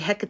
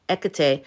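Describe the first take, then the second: First: The word starts with an H sound. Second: The word starts with a vowel sound. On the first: The speaker calls it wrong. "I've been saying Hecate" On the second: The speaker calls it right. "You don't pronounce the H"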